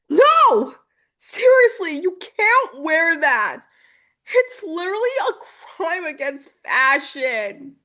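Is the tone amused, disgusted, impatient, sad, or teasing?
disgusted. It sounds disgusted and repelled.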